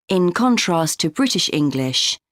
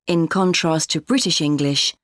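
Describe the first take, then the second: No difference in how they are said.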